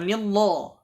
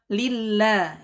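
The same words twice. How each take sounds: First: The L sound is thick and heavy. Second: The L sound is thin and light. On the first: The speaker calls it wrong. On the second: The speaker calls it right.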